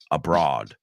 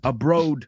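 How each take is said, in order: First: The second syllable rhymes with 'broad'. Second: The second syllable rhymes with 'road'. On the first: The speaker calls it right. "it's abroad" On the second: The speaker calls it wrong. "no digas abroad"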